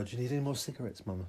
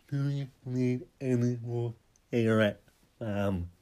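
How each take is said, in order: First: Said in the usual way. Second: The same question again, pushed louder; louder repeat. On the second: Shown as a demonstration. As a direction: lean on it, louder and insistent. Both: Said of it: "repeats the line louder".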